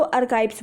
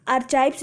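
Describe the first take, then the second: First: आर्काइव्स with a hard K, "ar-kaives"; correct pronunciation. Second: आर्काइव्स with a "ch" sound, "ar-chaives"; wrong pronunciation. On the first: Teacher giving students the proper reading, आर्काइव्स with a "k" sound. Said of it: "इसको आर्काइव्स पढ़ते हो". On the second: Teacher warning students off a misreading, आर्काइव्स mispronounced with "ch". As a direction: say आर्काइव्स with CH as in chair in place of K. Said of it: "इसको आर्काइव्स नहीं पढ़ते". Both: Shown as a demonstration.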